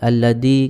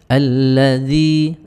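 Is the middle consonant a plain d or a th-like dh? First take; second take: d; dh. First: The middle consonant is a plain d sound. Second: The middle consonant is a th-like dh sound. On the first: The speaker calls it wrong. "jangan sampai kemudian tertukar dengan dal" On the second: The speaker calls it right. "dzalnya hati-hati"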